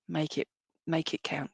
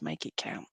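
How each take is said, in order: First: Said in the usual way. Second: Breathy whispered echo, much lower and softer; a whispered parting message from mum. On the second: Retold or imitated. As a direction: breathe it like a secret farewell. Passing on mum's message.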